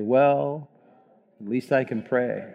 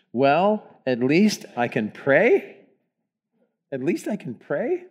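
First: Slow, low, defeated, falling on pray. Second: Rising tune on pray at the end; read as a question. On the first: Congregation reading the title in a defeated voice. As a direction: say it like you've given up. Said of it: "slow, low voice, almost like a defeated voice". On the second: Congregation reading the title as a question, rising. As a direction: ask it, lifting the final pray. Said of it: "read it as a question". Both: Shown as a demonstration.

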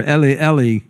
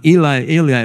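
First: "Eli" said as ELL-ee; short e and final "ee" in "Eli"; alternative pronunciation. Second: "Eli" said as EE-lye, AY-lye; long vowels in "Eli", ending like "eye"; alternative pronunciation. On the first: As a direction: say "Eli" to rhyme with "belly". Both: Shown as a demonstration.

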